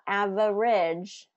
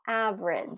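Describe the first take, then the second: First: Every syllable is fully pronounced. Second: A middle syllable is dropped or reduced. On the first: The speaker calls it wrong. "not average" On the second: The speaker calls it right. "but average"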